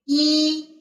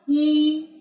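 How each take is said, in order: First: The pitch stays high and level. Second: The pitch stays high and level.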